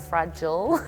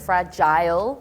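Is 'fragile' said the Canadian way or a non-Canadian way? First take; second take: non-Canadian; Canadian. First: It is pronounced a non-Canadian way. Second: It is pronounced the Canadian way. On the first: "rather than fragile" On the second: "the fact that you say like fragile"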